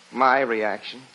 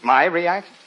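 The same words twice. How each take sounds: First: Low-pitched, offhand question; feigned modesty. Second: Quick questioning rise, full voice; pleased surprise. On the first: Husband coaxing the reporter to insist, falsely modest. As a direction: play it down as if reluctant. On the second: Husband asked by the reporter for his reaction, surprised. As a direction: perk up at being asked. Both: Acted.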